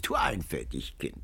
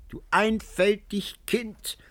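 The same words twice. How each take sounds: First: Soft, low teasing; low mocking. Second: High, slow whispered tease; cackling whisper. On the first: Old woman teases Antonio, low and quiet. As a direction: chide him quietly. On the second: Old woman teases Antonio, high whispered cackle. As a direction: whisper it like a giggling crone. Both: A narrator's reading. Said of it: "Die Alte kicherte und lachte".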